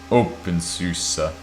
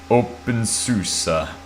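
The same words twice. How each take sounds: First: It is said in a plain accent. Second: It is said in a mock Italian accent.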